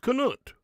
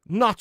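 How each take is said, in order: First: The word starts with a k sound. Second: The word starts with an n sound. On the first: The speaker calls it right. "So you actually pronounce the K" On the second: The speaker calls it wrong. "I've been calling K- Knut nut all this time"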